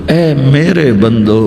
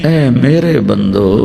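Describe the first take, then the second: The two takes are said the same way.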